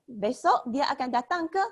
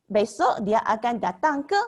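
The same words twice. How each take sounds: First: A second teacher's model of "ke" rising; repeat of the ke question. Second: "ke" lifted at the end as a question; the Malay question particle "ke" said with a rise. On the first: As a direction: say it once more, "ke" going up. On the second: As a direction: let "ke" rise on the last beat. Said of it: "we can ask like this". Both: Shown as a demonstration.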